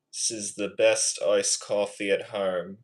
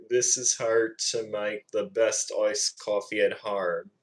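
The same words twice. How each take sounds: First: Attempted British impression; British accent. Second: Practised Aussie accent attempt; Australian accent. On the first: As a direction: imitate a British speaker. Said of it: "I'm better at the British accent". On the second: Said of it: "trying to do a good Australian accent impression". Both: Shown as a demonstration.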